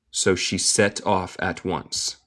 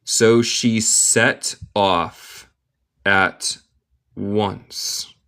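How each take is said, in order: First: Said in the usual way. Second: "So she set off at once" slowly, word by word; slow model reading. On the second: Shown as a demonstration. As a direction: pause before "at" and before "once". Teacher models slowly, then reads normally.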